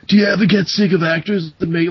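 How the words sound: It is spoken in a laid-back surfer-dude accent. "so I could do a surfer douchebag"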